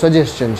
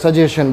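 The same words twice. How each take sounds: First: The ending is said like the end of 'question'. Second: The ending is said with a plain 'shun' sound. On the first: The speaker calls it right. "સાચું ઉચ્ચારણ એનું સજેશન છે, જેમ ક્વેશ્ચન બોલીએ ને એવી રીતે" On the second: The speaker calls it wrong. "ઘણા આપણે સજેશન બોલતા હોઈએ છીએ"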